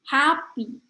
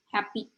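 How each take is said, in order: First: Flowing syllables with a stressed first syllable. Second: Short, even syllables with no clear stress. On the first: The speaker calls it right. "bahasa Inggris itu lebih flowy" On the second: The speaker calls it wrong. "kalau non-native ngomongnya cuma happy"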